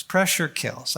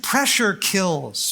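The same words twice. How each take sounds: First: Said in the usual way. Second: "pressure kills" drawn out slowly, weight on "pressure"; slow emphasis. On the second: Shown as a demonstration. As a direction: lean on "pressure" and let "kills" fall slowly.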